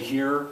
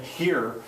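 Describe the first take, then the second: First: The h is silent, with the breath held. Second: The h is strongly aspirated, breath pushed out. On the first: You're next to take the joint. "they held their breath in, so when they say here" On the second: The smoke is being exhaled. "they would blow the smoke out"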